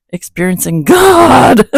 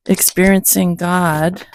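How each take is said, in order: First: Loud, grand, high proclamation of Experiencing God; title shouted out with mock grandeur; dramatic title announcement. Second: Said in the usual way. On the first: Shown as a demonstration. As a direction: boom out Experiencing God like a movie trailer. Announcing the book title with flourish.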